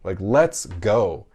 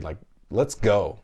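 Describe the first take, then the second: First: Bigger slower cheer. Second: Slow hyped cheer; mock cheer. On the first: Retold or imitated. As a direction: stretch it and push harder. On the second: Dad cheering his son at sight words, slow hype. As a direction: pump the kid up, drawn out. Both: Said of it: "I'm like".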